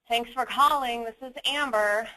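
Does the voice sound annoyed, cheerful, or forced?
annoyed. The voice sounds annoyed and unwilling. Being on the call is an inconvenience. The speaker calls it wrong. "I sound annoyed"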